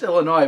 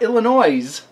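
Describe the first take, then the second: First: The final S sound is silent. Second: The final S sound is pronounced. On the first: The speaker calls it right. "It's just Illinois" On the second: The speaker calls it wrong. "it's not Illinois. You don't pronounce that S at the end of it"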